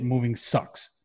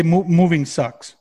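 First: Said in the usual way. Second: Drawn-out slower mock "moving sucks"; mock obvious sympathy. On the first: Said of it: "like, no shit". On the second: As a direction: stretch "moving sucks" as a tired cliché. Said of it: "they say".

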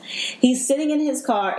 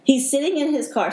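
First: Slow, high, fighting off crying; holding back tears. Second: Holding back tears. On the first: Retelling her rescue to the host, slow and near tears. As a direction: get the words out through emotion. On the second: Retelling her rescue to the host, choked with emotion. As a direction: voice rising as emotion breaks through. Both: Real, not acted. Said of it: "really trying not to get emotional".

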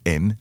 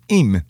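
First: Said in the usual way. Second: "im" drawn into a Russian-accented "eem"; coached syllable. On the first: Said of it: "break it down into syllables". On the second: Shown as a demonstration. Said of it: "Say this".

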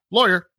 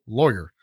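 First: A single flat "Lawyer" that shuts the talk down; firm one-word demand. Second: "Lawyer" low and flat, falling; a dull, final "Lawyer"; firm one-word demand. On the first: Telling listeners what to say when arrested, firm. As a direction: say "Lawyer" short and firm, falling at the end. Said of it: "you say, "Lawyer". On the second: Refusing police questions, flat and final. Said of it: "you shut the hell up and you say". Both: Shown as a demonstration.

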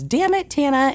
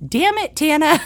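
First: Lightly voiced husband, a bit higher, playfully cursing; husband joking. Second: Put-on much higher, squeaky little-kid parroting; toddler copying. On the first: Husband jokingly cursing at his wife, in a lightly mimicked teasing voice. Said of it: "Chase was joking around about something and goes". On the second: Three-year-old daughter parroting her dad's curse, in a much higher tiny-kid voice. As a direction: echo it like a three-year-old repeating dad. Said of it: "And she goes".

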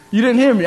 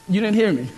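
First: Louder repeat. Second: Said in the usual way. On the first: Real, not acted. Preacher repeating his line louder so the congregation responds. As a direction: say it louder to wake them.

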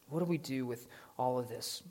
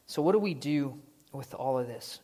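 First: "What do we do with all of this?" asked again much softer; the question repeated softly so it sinks in; quiet repeat. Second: Said in the usual way. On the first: Shown as a demonstration. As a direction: drop it to a reflective hush.

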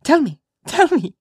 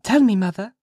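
First: Put-on very high, loud playful child; gleeful little-girl demand; capering child. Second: Put-on high, earnest child's plea; loud, high little-girl request; serious child. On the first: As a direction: chant it teasingly, no longer serious. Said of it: "laughing and capering about". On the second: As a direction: ask mother in earnest, as a child. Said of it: "seriously coming up to Hester". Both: A narrator's reading.

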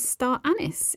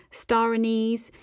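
First: "anise" said AN-iss, stress on the first syllable; American pronunciation. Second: Said in the usual way. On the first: Shown as a demonstration. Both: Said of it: "is pronounced as star anise in America".

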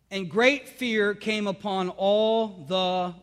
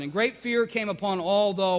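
First: Slow, drawn-out scripture reading that stops for the crowd to answer; slow lead-in reading. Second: Said in the usual way. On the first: Shown as a demonstration. Pastor reading Acts so the congregation fills in the word, slow and drawn out. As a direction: read very slowly, leaving it open for them to finish.

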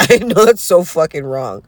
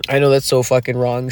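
First: Louder, stressed on I; a bit higher and louder, owning it; emphatic admission. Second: Said in the usual way. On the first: Shown as a demonstration. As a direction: punch it out like a confession.

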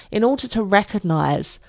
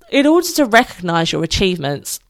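First: Speaking through a yawn; words stretched by a yawn. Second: Said in the usual way. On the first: Real, not acted. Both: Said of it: "I'm yawning there".

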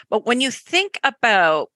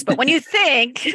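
First: "about" with a Canadian vowel, slipping out by accident; Canadian accent slip. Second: Retry it, giggling at your own accent; laughing retake. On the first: Host notices her Canadian accent slipping into "about". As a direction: let your Canadian "about" sneak in. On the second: Host laughs at her Canadian accent and says it again. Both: Real, not acted. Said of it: "there's my Canadian accent coming in".

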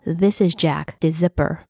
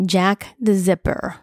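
First: Said in the usual way. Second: Name repeated slowly and deliberately; measured, slower echo of an introduction. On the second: A narrator's reading. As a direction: draw out the name as you repeat it. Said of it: "I repeated".

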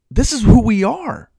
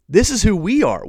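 First: Slow, high and loud, stressing this; emphatic. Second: High, stress on we, falling; repeated emphasis. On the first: Preacher driving the point home to his men, slow emphatic call. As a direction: hammer home this is who we are. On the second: Preacher repeating the point to his listeners, stressing we. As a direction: lean on we as you repeat it. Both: Shown as a demonstration.

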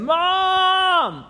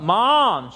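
First: Very high, loud, long holler for mother; full-blast child's scream for mom; drawn-out yell. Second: Raised, higher call for mother; kid's loud summons, short of full blast; boy calling out. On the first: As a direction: bellow and stretch it out like an insistent kid. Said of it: "he, she hears his voice call out again". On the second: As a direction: call out for mom from bed. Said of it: "her boy call out". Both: Acted.

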